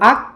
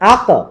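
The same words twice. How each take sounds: First: The final consonant stops without a bouncing release. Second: The final consonant ends with a bouncing release. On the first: "এটা কলকলা না" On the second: "এটা কলকলা"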